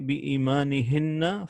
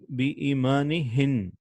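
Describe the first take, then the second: First: The word ends on an added na vowel. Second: The word ends on n, with no final vowel. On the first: The reciter continues without stopping. "But if you don't stop, you're gonna say" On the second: The reciter stops at this point. "If you stop, you're gonna say"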